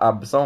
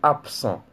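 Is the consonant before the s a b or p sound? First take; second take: b; p. First: The consonant before the s sounds like b. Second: The consonant before the s sounds like p. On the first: The speaker calls it wrong. "on ne dit pas absent" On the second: The speaker calls it right. "on dit absent"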